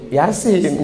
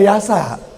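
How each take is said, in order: First: It ends with the syllable sin. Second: It ends with the syllable sa. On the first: The speaker calls it right. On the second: The speaker calls it wrong. "nggak boleh Yasa"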